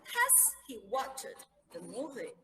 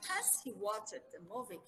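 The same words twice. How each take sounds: First: "Has he watched the movie?" spoken slowly and clearly; slow model question. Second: Said in the usual way. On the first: Shown as a demonstration. Teacher models the question slowly for the class. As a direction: spell out the question for learners. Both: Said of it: "Has, perfect".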